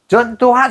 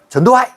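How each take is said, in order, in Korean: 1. 이름의 각 음절을 또박또박 발음해요. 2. 이름의 음절들을 붙여서 발음해요. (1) "전두환 이러면" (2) "경상도 말할 때 이거 말할 때 분판 발음이 되거든"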